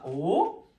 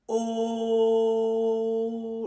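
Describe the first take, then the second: First: The pitch rises steadily. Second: The pitch stays level. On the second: "Il est tout plat"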